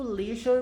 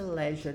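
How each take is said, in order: First: "leisure" with "lee" as in see; own leisure. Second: "leisure" with "le" as in let; other leisure. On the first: Teacher giving her own way to say it, "leisure" with a long "ee". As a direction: say "leisure" the American way, LEE-zhur. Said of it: "Eu falo leisure". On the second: Teacher naming the other way she has heard it, "leisure" with short "e". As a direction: say "leisure" the British way, LEH-zhuh. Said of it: "mas eu já vi também a pa-, a pronúncia". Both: Shown as a demonstration.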